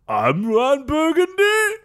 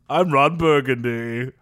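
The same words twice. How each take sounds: First: The voice rises at the end like a question. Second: The voice falls at the end like a statement. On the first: It is read as a question by mistake. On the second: It is a plain sign-off.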